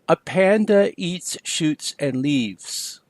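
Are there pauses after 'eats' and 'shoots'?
no. It is said smoothly without pauses.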